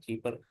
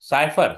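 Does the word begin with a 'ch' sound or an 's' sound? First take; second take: ch; s. First: The word begins with a 'ch' sound. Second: The word begins with an 's' sound. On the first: The speaker calls it wrong. "चीपर नहीं आएगा ना" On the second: The speaker calls it right. "साइफर पड़ेगा"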